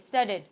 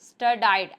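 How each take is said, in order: First: The second syllable sounds like 'dee'. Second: The second syllable sounds like 'die'. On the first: The speaker calls it right. "इसको बोलेंगे स्टडीड" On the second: The speaker calls it wrong. "एक student को बोलते हुए सीखा था स्टडाइड"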